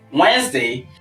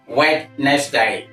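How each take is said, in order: First: The word is said with two syllables. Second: The word is said with three syllables. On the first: The speaker calls it right. "with the stress on the first syllable" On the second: The speaker calls it wrong. "you add three syllables"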